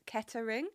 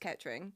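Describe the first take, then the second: First: The name is said with three syllables. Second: The name is said with two syllables. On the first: This is how outsiders say it. The speaker calls it wrong. "very often mispronounced as Kettering" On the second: This is how locals say it. The speaker calls it right. "if you're from there, it's Kettering"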